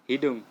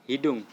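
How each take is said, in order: Both takes have the same delivery.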